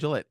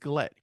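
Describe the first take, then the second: First: The name begins with a soft G sound. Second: The name begins with a hard G sound. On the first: The speaker calls it wrong. "it's not Gillette" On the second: The speaker calls it right. "It's a hard G"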